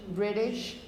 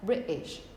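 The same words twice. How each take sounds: First: The middle t is a quick flap. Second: The middle t is a glottal stop. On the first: "If you were American... with this sort of flap R" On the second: "if you were British and you used these glottal stops"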